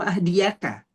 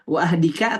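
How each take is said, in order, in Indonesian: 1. Kata itu diucapkan dengan suku kata 'ya'. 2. Kata itu diucapkan tanpa suku kata 'ya'. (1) "Wahdika atau wahdiyaka?" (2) "Wahdika atau wahdiyaka?"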